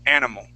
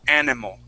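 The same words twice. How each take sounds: The two takes are said the same way.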